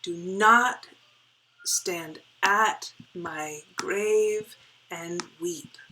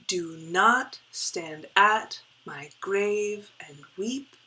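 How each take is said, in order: First: "Do not" said loud, the rest stretched out slowly; slow heartbeat reading with "not" pushed hard; stress on not. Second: "not" leaned on, the rest of the line drawn out slowly; slow beat reading that hits "not" and not "Do"; stress on not. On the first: Teacher repeating the line for the class, punching "not". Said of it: "the emphasis is on not". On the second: Teacher reading the line slowly to students, stressing "not". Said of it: "not putting the emphasis on do, the emphasis is on not". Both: Shown as a demonstration.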